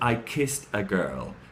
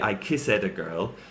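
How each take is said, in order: First: Kissed is one syllable ending in t. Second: Kissed is said with an extra ed syllable. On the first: The speaker calls it right. "she says" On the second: The speaker calls it wrong. "She doesn't say"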